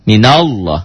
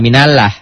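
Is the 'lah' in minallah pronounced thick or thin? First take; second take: thick; thin. First: The 'lah' is thick, sounding like 'loh'. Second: The 'lah' is thin, with an 'a' vowel. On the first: The speaker calls it right. "Lafad Allah dibaca tebal, berbunyi o" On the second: The speaker calls it wrong. "Enggak minallah"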